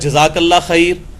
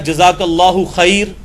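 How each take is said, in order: First: It ends in 'Allah khair' with no vowel endings. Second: It has 'Allahu' but ends bare in 'khair'. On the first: "तो ये लफ्ज़ भी गलत है।" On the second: "ये भी लफ्ज़ गलत है।"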